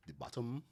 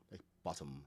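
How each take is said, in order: First: Bottom said with a Caribbean lilt, rising. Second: Said in the usual way. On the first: Shown as a demonstration. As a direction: let the Caribbean accent shape bottom. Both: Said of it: "the accent comes out in certain words".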